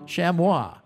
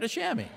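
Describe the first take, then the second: First: The word is said with a French pronunciation. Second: The word is said with an English pronunciation. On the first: "It's the French" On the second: "In France, they don't say chamois"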